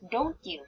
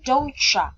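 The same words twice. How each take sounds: First: The two words are said fully and separately. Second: The two words blend into one reduced form.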